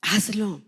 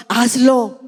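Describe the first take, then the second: First: Hazlo dropped to a much softer, intimate repeat; soft echo. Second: Louder, insistent hazlo with a falling end; urgent command. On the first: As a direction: let hazlo fall quietly like a heartfelt appeal. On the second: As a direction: push hazlo out as a firm plea. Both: Shown as a demonstration.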